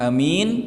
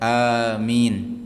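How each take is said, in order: First: The first vowel is short, the second long. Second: The first vowel is long, the second long. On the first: "jadi a-nya pendek, mimnya panjang" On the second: "yang masyhur a-nya panjang, mimnya juga panjang"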